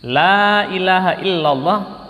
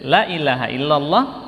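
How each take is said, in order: First: The vowel in 'la' is held long. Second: The vowel in 'la' is cut short. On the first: There is no god but God. The speaker calls it right. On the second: There truly is a god besides God. The speaker calls it wrong.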